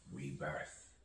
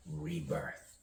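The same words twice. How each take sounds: First: Rebirth dropped back down, much softer; low, soft echo. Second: Rebirth leaping far up in pitch; high-pitched echo. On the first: Poet closing on rebirth as two snakes, low soft echo. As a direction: let the echoed word sink away quietly. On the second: Poet echoing rebirth as two snakes, high-pitched. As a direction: echo the word in a high, lighter voice. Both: Acted. Echoed word in a poem.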